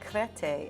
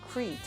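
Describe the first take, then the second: First: The name is said with Greek pronunciation. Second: The name is said with English pronunciation.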